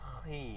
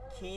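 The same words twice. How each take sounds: First: The kh sound is heavy and thick. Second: The kh sound is light and thin. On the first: The speaker calls it right. "খি একটু মোটা" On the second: The speaker calls it wrong. "খি না"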